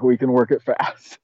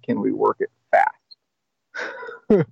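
First: Said in the usual way. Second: Slow, stretched question rising at the end; drawn-out hopeful ask. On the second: Retold or imitated. Asking his sponsor to rush the steps, slow and drawn out. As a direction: stretch "Can we work it fast?" out slowly, hoping.

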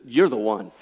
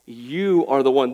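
First: Said in the usual way. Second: "You are the one" said slowly, each word weighted; slow emphatic restatement. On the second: Shown as a demonstration. Preacher hammering the point to his congregation, slow and emphatic.

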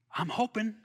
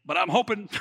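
First: Chuckling through the words; laughing. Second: Said in the usual way. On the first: Real, not acted. Pastor repeating his hope to the congregation with a chuckle. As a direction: laugh it out softly.

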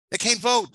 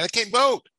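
First: "They can't vote." shouted higher and louder, dropping firmly on "vote"; falling cry. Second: "they can't vote." shouted much higher and louder, ending on a rise; rising cry. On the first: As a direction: land hard on "vote" with a fall. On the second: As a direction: cry out "vote" with an upward lift. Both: Retold or imitated. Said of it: "King said to President Johnson".

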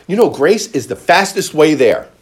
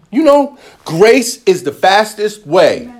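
First: Said in the usual way. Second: "grace is the fastest way" said slowly and higher for emphasis; emphatic repeat. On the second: Shown as a demonstration. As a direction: lean on it, slow and weighty. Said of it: "repeated for emphasis".

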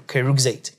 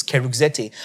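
First: Keruxate ending in a single "ate" syllable; English pronunciation. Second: Keruxete with the final e sounded, "zet-eh"; Greek pronunciation. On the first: Teacher showing students the English reading, anglicised pronunciation. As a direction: say keruxate English-style, silent final e. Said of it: "if you're gonna pronounce it English". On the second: Teacher giving students the phonetic Greek, Greek pronunciation. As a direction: say keruxete Greek-style, ending in two syllables. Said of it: "pronunciation in the Greek is". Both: Shown as a demonstration.

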